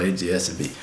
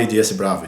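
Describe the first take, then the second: First: A D S B as English letters, ay dee ess bee. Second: A D S Bravo, the last letter said as the word Bravo; mock the mistake A D S Bravo; wrong version. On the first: Pilot correcting viewers, A D S B as ay dee ess bee. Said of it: "Todo mundo vai falar A D S B". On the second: Pilot warning viewers, A D S Bravo with Bravo. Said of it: "não fale A D S Bravo". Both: Shown as a demonstration.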